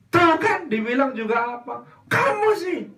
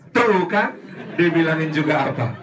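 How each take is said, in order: First: High, loud told-you-so; mother blaming her child, high and loud. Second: Loud told-you-so nag; mother scolding her fallen child, told-you-so; nagging mother. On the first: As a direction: pin the blame on the child. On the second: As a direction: scold like an annoyed mom. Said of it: "Kalimat apa yang pertama kali". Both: Acted.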